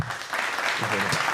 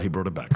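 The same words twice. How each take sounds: First: Slow breathy whisper; whispered repeat. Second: Said in the usual way. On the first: Shown as a demonstration. Comedian whispering the callback to himself, slowly. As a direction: savour it under the breath.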